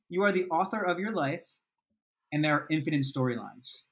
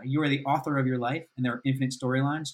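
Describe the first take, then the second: First: The sentence is spoken at a slower pace. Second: The sentence is spoken at a quicker pace.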